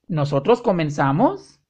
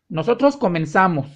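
First: It has question intonation, rising at the end. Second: It has statement intonation, falling at the end. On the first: It asks whether it is true. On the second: It states a fact.

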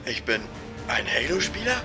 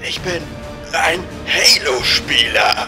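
First: It is said quietly and hesitantly. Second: It is said loudly.

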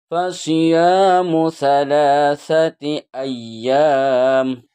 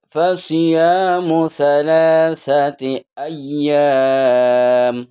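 Both takes have the same delivery.

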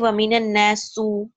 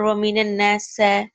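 First: The last word ends in a u vowel. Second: The last word ends in an a vowel. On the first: "you can never say waminan nasu" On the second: "or waminan nasa"

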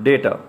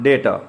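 Both takes have the same delivery.

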